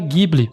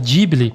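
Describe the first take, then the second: First: The name is pronounced the Italian way. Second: The name is pronounced the Japanese way. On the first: "a palavra original em italiano se pronuncia Ghibli" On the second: "O próprio Miyazaki pronuncia Ghibli, que é o mais normal para falar em japonês"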